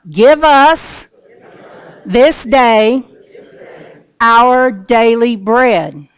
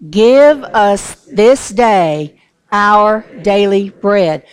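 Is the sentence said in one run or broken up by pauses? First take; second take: pauses; one run. First: The sentence is broken up by pauses. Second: The sentence runs together without pauses. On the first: The speaker calls it right. "Let's divide it up" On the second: The speaker calls it wrong. "Don't say it all together"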